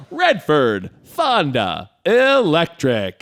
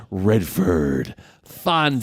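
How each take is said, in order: First: Slow, hammed-up trailer announcer; big mock voiceover, swelling higher and louder on the last word; old trailer announcer. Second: Lightly voiced trailer announcer; a hint of old trailer voiceover. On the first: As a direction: draw out each name like a cheesy trailer. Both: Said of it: "old trailers are bad".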